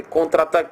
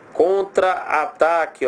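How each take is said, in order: First: Said in the usual way. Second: "contra-ataque" very slow, contra apart from ataque; split at hyphen. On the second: Shown as a demonstration. Teacher showing the double A, "contra-ataque" slowly in two pieces. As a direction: stretch "contra-ataque" so both A sounds are heard.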